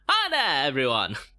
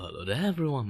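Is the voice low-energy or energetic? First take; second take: energetic; low-energy. First: It is said with lively, high energy. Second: It is said with flat, low energy.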